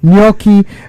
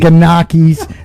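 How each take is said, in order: First: The initial G is left silent. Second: The initial G is sounded aloud. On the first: The speaker calls it right. "The G is fucking silent" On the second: The speaker calls it wrong. "we hear all this craziness"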